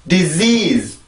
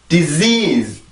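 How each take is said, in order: No difference in how they are said.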